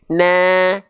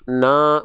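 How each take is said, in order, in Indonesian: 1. Vokal itu diucapkan dengan bibir melebar seperti tersenyum. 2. Vokal itu diucapkan dengan mulut terbuka, tidak melebar. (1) "na sambil senyum" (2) "Kalau kita lafalkan hanya buka mulut, tapi tidak dengan senyuman ... Kadar tipisnya kurang sempurna"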